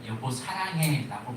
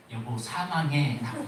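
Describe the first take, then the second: First: 사랑해 said clearly as sa-rang-hae; "사랑해" with a clean r sound, plainly; intended text. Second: 사망해 with m in place of r, laughing; "사망해" stressed, sa-mang-hae, amused; mistyped text. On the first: Pastor reading the message the wife meant to send, 사랑해 said plainly. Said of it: "보내야 되는데". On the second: Pastor reading the wrong text 사망해, with a laugh. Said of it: "보낸 거예요". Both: Shown as a demonstration.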